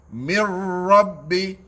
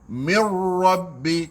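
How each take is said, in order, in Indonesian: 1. Ra diucapkan dengan bibir ditekan rapat. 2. Ra diucapkan dengan bibir membulat dan dimonyongkan ke depan. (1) "tekan bibir mulut kita" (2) "kita muncung"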